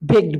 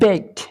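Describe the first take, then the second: First: The word ends with a d sound. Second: The word ends with a t sound. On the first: The speaker calls it wrong. "এখানেও কিন্তু আমরা ভুল করে থাকি, আমরা বেক বেকড বেকড বলি" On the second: The speaker calls it right. "তার উচ্চারণ কিন্তু টি হয়ে যায়"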